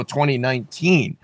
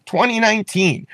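First: Said in the usual way. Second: Twenty nineteen jumps much higher, pressed hard; stress on the year. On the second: Shown as a demonstration. Candidate pointing listeners to the year, repeated high and pressed. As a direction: punch "Twenty nineteen" high to nail the date.

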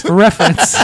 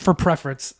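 First: For reference, said clearly without the P; corrected word. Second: For preference, with a P sound on preference; for preference, the wrong word said by mistake; slip of the tongue. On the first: Shown as a demonstration. Correcting the slip to a friend, laughing. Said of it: "What'd I say?". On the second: Real, not acted. Friend mishears it as for preference. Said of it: "Did you mean for reference?".

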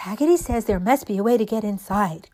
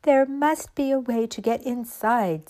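First: Louder, mildly excited echo; excited cry. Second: Slightly raised, determined doll voice; a hint of a doll puzzling it out; lightly voiced doll. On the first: All the dolls relaying Raggedy's words, mildly excited cry. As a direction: pass it on with a light cry. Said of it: "cried all the dolls". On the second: Raggedy Ann to the dolls at the locked door, lightly voiced. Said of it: "said Raggedy Ann". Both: A narrator's reading.

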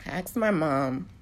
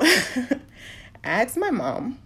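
First: Slow, careful words while holding back crying; slow down and steady yourself to get it out; steadied after tears. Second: Higher, wobbling words through tears; voice breaking. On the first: Retelling asking her mom, forcing herself steady. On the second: Retelling asking her mom about her dad, voice breaking. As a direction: push the words out as your voice cracks. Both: Real, not acted. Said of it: "I'm trying not to cry".

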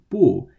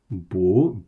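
First: "bu" loud, falling in classic fourth tone. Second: "bu" rising in second tone. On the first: Teacher recalling the classic negation word, falling fourth tone on "bu". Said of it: "B U in the fourth tone that we've seen". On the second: Teacher spelling out a new phrase, rising second tone on "bu". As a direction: lift the pitch through "bu", pushed a little louder. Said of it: "in the second tone". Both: Shown as a demonstration.

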